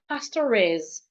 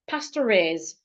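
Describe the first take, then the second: First: An R sound joins pastor smoothly to is. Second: An R sound joins pastor smoothly to is.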